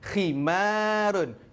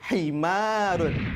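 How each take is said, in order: First: The word starts with a harsh, throaty kh sound. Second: The word starts with a soft, breathy h sound. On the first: It means a headscarf. The speaker calls it right. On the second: It carries a different, wrong meaning. The speaker calls it wrong. "menukarkan huruf kha kepada huruf ha"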